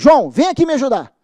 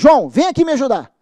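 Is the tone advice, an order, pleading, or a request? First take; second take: order; order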